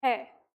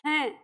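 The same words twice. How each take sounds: First: है said plain with no nasal sound at the end; है with an open, un-nasalised vowel; bina bindi ka hai. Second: हैं said with a clear nasal hum on the vowel; हैं with the anusvara sound ringing through the nose; nasal hain. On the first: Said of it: "तो अब हम इसका उच्चारण क्या करते हैं?". (है बिना नासिक ध्वनि के) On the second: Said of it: "ये क्या होगा?". (हैं अनुस्वार की नासिक ध्वनि के साथ) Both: Shown as a demonstration.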